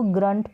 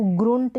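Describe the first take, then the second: First: ग्रंट with the vowel of "hunt"; short "uh" vowel. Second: ग्रुंट with the "u" of "put"; wrong u vowel. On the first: Teacher giving the proper reading, ग्रंट with an "uh" sound. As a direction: model ग्रंट as "gruhnt". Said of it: "इसको ग्रंट पढ़ेंगे". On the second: Teacher warning against a misreading, ग्रुंट with an "oo" sound. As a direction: show the misreading ग्रुंट, as "groont". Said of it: "अब इसको ग्रुंट नहीं पढ़ेंगे". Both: Shown as a demonstration.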